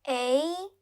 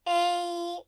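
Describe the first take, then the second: First: The pitch rises from mid to high. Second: The pitch stays high and level.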